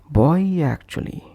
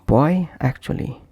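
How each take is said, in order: First: A soft y sound links the two words. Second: The two words are joined without a y sound. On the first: The speaker calls it right. "we will add a soft Y between these two" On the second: The speaker calls it wrong. "instead of saying it like this"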